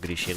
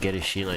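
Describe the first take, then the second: First: No extra vowel is heard after the G. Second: An extra 'i' vowel is heard after the G. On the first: The speaker calls it right. "instead of Girishino" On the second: The speaker calls it wrong. "I keep saying Girishino ... I don't know where I'm getting an I from"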